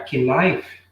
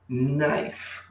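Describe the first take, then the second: First: A K sound is heard before the N. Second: The word begins directly with the N sound. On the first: The speaker calls it wrong. "Não é que knife?" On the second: The speaker calls it right. "Você não faz o som do K. Você fala knife, vai direto pro N"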